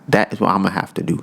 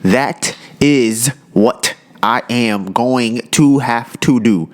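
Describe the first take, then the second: First: It is said in a casual, street style. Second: It is said in a careful, standard style.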